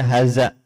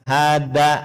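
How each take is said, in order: First: The middle consonant is a voiced th sound. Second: The middle consonant is a plain d sound. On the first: The speaker calls it right. "ini harus diluruskan ya supaya benar pengucapannya" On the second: The speaker calls it wrong. "bukan seperti dal, hada, salah"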